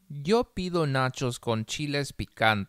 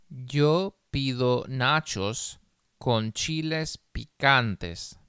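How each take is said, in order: First: The sentence is read at a faster pace. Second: The sentence is read very slowly. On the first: "más rápido" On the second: "una vez muy despacio"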